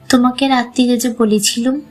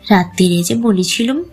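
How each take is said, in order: First: It is said in a plain voice. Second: It is said in a mocking, mimicking voice.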